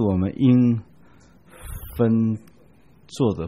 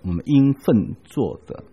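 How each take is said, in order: First: The syllable fen has a level tone. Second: The syllable fen has a falling tone. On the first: Things are done separately. The speaker calls it wrong. "不是我们应分做的，分开分别来做事情，不是这个意思" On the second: It is what duty requires one to do. The speaker calls it right. "最后那几个字要读作我们应分做的"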